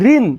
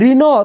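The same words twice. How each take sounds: First: The word ends closed on the n consonant. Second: The word ends with an added o vowel. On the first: The speaker calls it right. "মুখ বন্ধ হয়ে গেছে" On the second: The speaker calls it wrong. "এখানে একটা ওকার হইতো"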